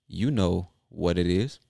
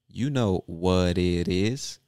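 Both takes have the same delivery.

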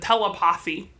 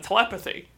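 First: Each syllable is sounded out very carefully. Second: The word is said in an ordinary way. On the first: This imitates how a singer pronounced it. "Girls' Generation said telepathy" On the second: This is the usual pronunciation. "instead of telepathy"

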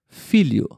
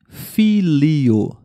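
First: The word is said quickly, with the 'li' sound blended. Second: The word is said slowly, with a clear 'li' sound. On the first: "Mas você fala um pouquinho mais rápido" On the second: "como se fosse filho"

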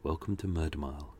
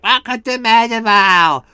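First: It is said in a calm, soft, measured way. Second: It is said in a loud, energetic, excited way. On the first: This is the narration voice used now. The speaker calls it right. "my voices have become very calm" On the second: This was the early narration voice. The speaker calls it wrong. "in the original version, I was like"

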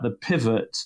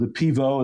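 First: It is said with a plain English accent. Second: It is said with a French accent.

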